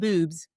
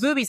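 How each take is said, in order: First: The name is said with one syllable. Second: The name is said with two syllables. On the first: The speaker calls it wrong. "I want to say it Boobs, but I say it wrong" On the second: The speaker calls it right. "It's Boobies"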